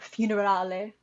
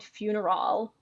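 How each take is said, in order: First: The word ends with a final vowel sound. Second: The word ends without a final vowel sound.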